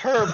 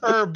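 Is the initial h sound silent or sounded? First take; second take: sounded; silent. First: The word begins with an audible h sound. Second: The word begins without any h sound. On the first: The speaker calls it wrong. "It's not herb" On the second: The speaker calls it right. "You don't say the H"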